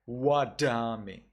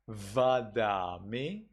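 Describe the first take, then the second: First: Wadami with W and sharp d; wadami, round W, crisp d; Burmese reading. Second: Slow vadami with V and blunt d; vadami, buzzing V, soft d; Sri Lankan reading. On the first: Teacher contrasting Burmese wadami with W. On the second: Teacher contrasting Sri Lankan vadami with V. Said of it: "Sri Lanka". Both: Shown as a demonstration.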